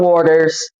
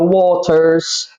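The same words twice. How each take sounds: First: It is said with an American accent. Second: It is said with a British accent.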